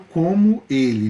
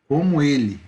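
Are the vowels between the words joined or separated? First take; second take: separated; joined. First: The vowels are pronounced separately, in distinct syllables. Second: The vowels merge into a single syllable. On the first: The speaker calls it wrong. "Eu não falo como ele" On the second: The speaker calls it right. "Eu junto o o e o o"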